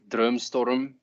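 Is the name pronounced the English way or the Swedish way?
Swedish. The name is pronounced the Swedish way. "If you're Swedish, you can say Drömstorm"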